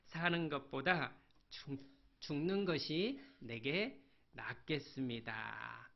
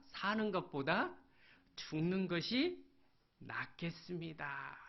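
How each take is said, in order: First: Said in the usual way. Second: Weary despair. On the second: Acted. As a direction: let the words sink as he gives up. Preacher voices Jonah wishing death. (천천히 힘이 빠지는 절망)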